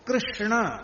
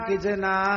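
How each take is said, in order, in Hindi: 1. इसमें पूरा 'krish' संयुक्त व्यंजन है। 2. यह सरल होकर 'kichna' बन जाता है, संयुक्त व्यंजन नहीं रहता। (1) "ये शुद्ध उच्चारण" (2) "बंगाली ... कहते"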